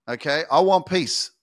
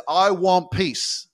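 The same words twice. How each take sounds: First: Said in the usual way. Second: Slow, drawn-out wish. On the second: Retold or imitated. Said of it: "everyone says".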